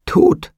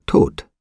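First: High, loud startled cry of TOT. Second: Said in the usual way. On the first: A narrator's reading. Trotty realises he is dead, high loud cry. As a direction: cry out the single word at a leap in pitch. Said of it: "schrie er auf". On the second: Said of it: "sagten die Gestalten aus einem Munde".

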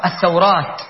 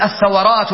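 First: الثورات as ath-thaw-rāt, lower, w unvowelled; corrected diphthong. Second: الثورات as ath-tha-wa-rāt, a after w; mistaken middle vowel. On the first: Shown as a demonstration. Teacher corrects the common error, الثورات as ath-thaw-rāt. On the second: Retold or imitated. Teacher quotes a common error, الثورات as ath-tha-wa-rāt. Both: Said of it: "لا، خطأ".

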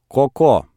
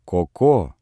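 First: A raised, commanding call of the name. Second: Put-on soften, coax the child; tender. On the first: Grandmother calls the stubborn grandson, commanding. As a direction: summon the boy sharply, high. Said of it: "не столько повелительным". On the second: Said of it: "сколько нежным голосом". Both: A narrator's reading.

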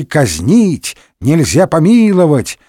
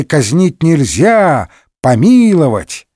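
First: Казнить set apart, then нельзя помиловать joined; pause after Казнить. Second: Казнить нельзя joined and drawn out, помиловать apart; pause after нельзя. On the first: One faction demanding execution, «Казнить» cut off by a pause. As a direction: break right after «Казнить». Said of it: "Одни говорили". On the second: Other faction objecting, «помиловать» set apart after a pause. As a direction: break after «нельзя», then land on «помиловать». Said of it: "другие возражали". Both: A narrator's reading.

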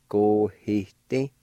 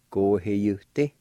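First: Go-he-ti said slowly with no Y sound; silent Y. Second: Go-he-you-ti said slowly with the Y as you; sounded Y. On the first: Teacher contrasting both ways, first Go-he-ti slowly. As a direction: say Go-he-ti, dropping the Y. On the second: Teacher contrasting both ways, then Go-he-you-ti slowly. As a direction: say Go-he-you-ti, keeping the you. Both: Shown as a demonstration. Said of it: "both ways".

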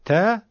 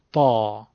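First: ت as a higher thin "te"; a light, bright-vowel "te"; light plain te. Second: تا lower, thick and full, like "taw"; heavy ta. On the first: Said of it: "حرف ت دو نقطه". (تِ نازک و زیر) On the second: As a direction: fill the throat on a deep تا. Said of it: "صداتون رو درشت کنین". (تا درشت و مفخم) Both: Shown as a demonstration.

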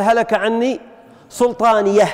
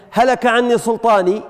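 First: Pause, then "سلطانيه" ending in an audible h; final haa of pausing. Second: Said in the usual way. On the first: Shown as a demonstration. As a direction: close "سلطانيه" on a breathed h, "sultaaniyah". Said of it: "هل هذه الهاء". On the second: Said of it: "قال".

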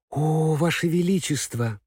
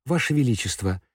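First: Exclaiming. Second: Said in the usual way. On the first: Acted. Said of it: "воскликнула Элли".

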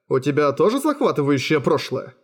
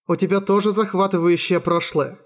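First: "у тебя тоже захватывающее прошлое" asked with a peak on "захватывающее"; curious question. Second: "У тебя тоже захватывающее прошлое" said higher, as an even statement; "захватывающее прошлое" in a higher, level voice, no question. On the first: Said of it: "спросил я из любопытства". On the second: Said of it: "сказала она". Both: A narrator's reading.

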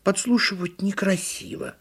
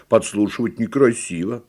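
First: High, mildly huffy turtle voice; high-pitched hurt reproof; offended turtle. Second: Ponderous elephant reproof in a middle pitch; earnest storybook elephant; little elephant. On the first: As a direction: reproach primly as a little turtle. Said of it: "обиделась «Именно я»". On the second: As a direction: repeat it solemnly as a baby elephant. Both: A narrator's reading.

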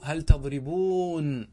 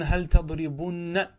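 First: "تضربون" with a very long oo; slow demo of "تضربون", long oo into n; original form. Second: "تضربن" with short u and held doubled n; drawn-out demo of "تضربن", ending -bunna; form with waw deleted. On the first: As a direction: stretch the ending of "تضربون" as -booon. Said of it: "هذا أصله قبل التوكيد". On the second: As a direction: say "تضربن" slowly, short u before a stressed nn. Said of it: "حذفت". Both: Shown as a demonstration.

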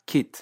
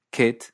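First: KIT with an Australian high vowel, almost 'keet'; Australian accent. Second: Said in the usual way. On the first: Shown as a demonstration. Teacher contrasting accents, Australian KIT close to 'keet'. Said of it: "esta vocal se pronuncia alta". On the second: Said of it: "Así que kit suena kit".

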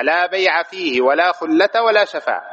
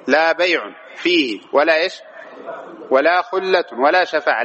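First: "بيع" and "خلة" ending in bare -a; "بيع" and "خلة" drawn out, fatha without tanwin; fatha reading. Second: "بيع" and "خلة" ending in -un; "بيع" and "خلة" drawn out with nunated damma; tanwin reading. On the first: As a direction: recite bay'a for "بيع", khullata for "خلة", slowly. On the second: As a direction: recite bay'un for "بيع", khullatun for "خلة", slowly. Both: Shown as a demonstration. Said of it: "قراءتان".

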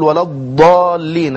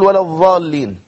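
First: الضالين with an emphatic ض, tongue pressed to the side; نطق الضاد صحيحة; proper Dad. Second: الضاد تنطق ظاء; Dad said as Zaa. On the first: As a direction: say الضالين with a heavy ض, not ظ. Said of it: "التي هي ضاد". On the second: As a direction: say الضالين as ظالين, tongue between teeth. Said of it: "فممكن يقول ولا الضالين". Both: Shown as a demonstration.

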